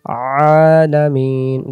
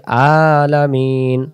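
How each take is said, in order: First: Very slow "আলামিন" opened from a pressed throat; squeezed ain. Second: Slow "আলামিন" with a clean glottal first vowel; hamza mistake. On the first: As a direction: stretch "আলামিন" with pharyngeal first sound. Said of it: "গলা চাপ লাগবে". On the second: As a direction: say "আলামিন" with no throat squeeze. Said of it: "তাহলে হামজা আসবে". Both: Shown as a demonstration.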